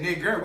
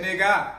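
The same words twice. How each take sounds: First: Said in the usual way. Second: "nigga" ending on a loud, high ah; "nigga" with no r, punched ah; open AH ending. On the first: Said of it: "you said nigger". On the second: Shown as a demonstration. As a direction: open up the last vowel of "nigga". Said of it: "we said nigga".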